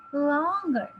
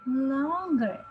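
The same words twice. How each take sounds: The two takes are said the same way.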